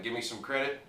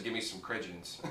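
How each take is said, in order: First: Said in the usual way. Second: Lightly imitating Ricky, "credence" said softer; a hint of a dumb guy botching "credit" into "credence"; Ricky's dumb misspeak. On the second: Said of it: "He says".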